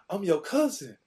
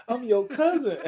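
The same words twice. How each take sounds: First: Put-on higher, louder eager kid shouting it; excited. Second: Even higher and louder, almost a yell; excited. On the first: Teen shouting to his NFL cousin, high and excited. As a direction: blurt it out like a starstruck kid. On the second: Retold or imitated. Teen insisting to his NFL cousin, louder and higher. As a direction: push it up into an eager shout. Kid self meets famous cousin.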